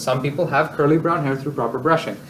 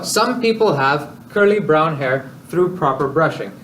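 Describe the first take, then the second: First: The sentence flows smoothly without internal pauses. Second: The sentence is broken by two awkward pauses. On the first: The speaker calls it right. "If you don't make those awkward pauses" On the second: The speaker calls it wrong. "those awkward pauses here and here as though there's commas there"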